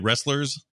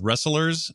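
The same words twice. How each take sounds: First: The word is said with two syllables. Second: The word is said with three syllables. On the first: This is how the speaker says it. "I say wrestlers as like two" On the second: This is how someone else says it. "you pronounce it out as wrestlers ... You give it a third little bump there"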